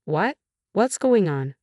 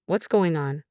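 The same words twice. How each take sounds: First: A touch of bewildered surprise, pitch lifted; puzzled, asking what is happening; lightly voiced confused husband. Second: Said in the usual way. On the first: A narrator's reading.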